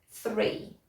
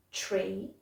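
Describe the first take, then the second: First: Three with the tongue between the teeth, softly; TH sound. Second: Tree with a plain T, quietly; a crisp T on tree; clean TR. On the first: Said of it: "my tongue comes out between my teeth". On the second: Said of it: "We've got tree". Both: Shown as a demonstration.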